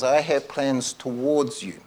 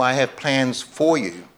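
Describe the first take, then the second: First: "towards" stretched slowly, falling onto "you"; slow, deliberate weight on "towards"; stress on TOWARDS. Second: "for" picked out, falling onto "you"; stress on FOR. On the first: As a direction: draw out the word "towards". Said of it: "a slight but very powerful difference". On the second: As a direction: lean on the word "for". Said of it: "what he's really saying is". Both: Shown as a demonstration.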